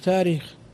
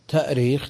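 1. لا همزة، بل مدّ طويل بدلها. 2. تُسمع همزة في الوسط. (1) "تخف" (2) "كثير من الكلمات المهموزة تخف"

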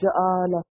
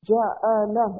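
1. آوازیں یکساں نہیں ہیں، یہ نمونہ ٹوٹ جاتا ہے۔ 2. تین یکساں مختصر 'a' آوازیں، ja-'a-la۔ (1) "ایسے نہیں ... وزن ٹوٹ جائے گا" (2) "اس کو بولیں گے بھی ہم کیسے؟"

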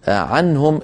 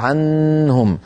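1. صوت النون واضح وقصير. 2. صوت النون يُمَدّ طويلا. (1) "إظهار النون بعدها ها" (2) "فلا تطول النون، لا يقال"

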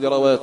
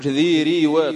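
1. لا تلي الراء حركة الكسرة. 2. تلي الراء حركة الكسرة. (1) "تقول ذروات ولا ذروات" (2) "قل ذي ريوات ثقيلة"

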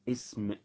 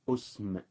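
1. تبدأ الكلمة بالحرف المتحرك i. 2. تبدأ الكلمة بالحرف المتحرك u. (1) "اللغة الأولى اسم بكسر الهمزة" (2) "ضم الهمزة"

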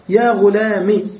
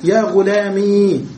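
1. الكلمة تنتهي بحركة قصيرة. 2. الكلمة تنتهي بحركة طويلة. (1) "بحذف الياء الساكنة وإبقاء الكسرة دليلا عليها" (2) "بإثبات الياء ساكنة"

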